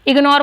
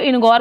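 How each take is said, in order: First: The word begins with an ig sound. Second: The word begins with an in sound. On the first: The speaker calls it right. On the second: The speaker calls it wrong.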